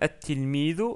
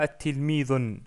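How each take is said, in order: First: The word ends on a plain u vowel. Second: The word ends with an added n sound. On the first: The speaker calls it right. "ce qui nous donne at-tilmidu" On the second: The speaker calls it wrong. "On ne dit pas at-tilmidun. Ça, ça n'existe pas en arabe"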